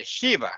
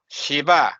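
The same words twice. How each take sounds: First: Shiva stressed on the first syllable; front-stressed Shiva; wrong pronunciation. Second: Shiva stressed on the last syllable; firm final a in Shiva; correct pronunciation. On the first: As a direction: say Shiva as SHEE-va. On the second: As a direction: say Shiva as shi-VA. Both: Shown as a demonstration. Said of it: "No, Shiva".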